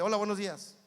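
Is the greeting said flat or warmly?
flat. The greeting is said flat and without feeling.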